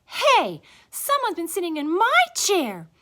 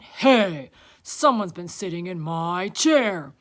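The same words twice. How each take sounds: First: High, loud, indignant she-bear; Mama Bear. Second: Big, loud bear voice; Papa Bear. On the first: Mama Bear looking at her chair, high loud voice. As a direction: cry out high and offended. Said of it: "Mama Bear looked at hers". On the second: Papa Bear looking at his chair, loud indignant voice. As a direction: boom it out, indignant. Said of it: "Papa Bear went to look". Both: A narrator's reading.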